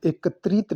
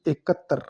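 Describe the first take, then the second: First: एकत्रित ending in "trit"; wrong form. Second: एकत्र ending in "tr", no "it"; correct form. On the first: Teacher rejecting the wrong form: एकत्रित with final "trit". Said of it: "नहीं". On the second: Teacher giving the right form: एकत्र as "e-kat-tar". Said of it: "ये शुद्ध है". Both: Shown as a demonstration.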